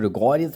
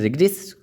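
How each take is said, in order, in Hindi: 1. बीच के स्वर पूरी तरह बोले जाते हैं। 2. बीच के स्वर गिराए जाते हैं। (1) "कुछ लोग रिगोरियस बोलते हैं इसको" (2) "रिग्रेस एक्यूरेटली इसका सही प्रोनाउंसिएशन है"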